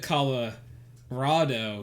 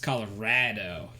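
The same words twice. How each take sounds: First: The stressed vowel sounds like the one in 'raw'. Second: The stressed vowel sounds like the one in 'rat'. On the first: This is how most people say it. "instead of Colorado" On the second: This is how a local says it. "she says Colorado more"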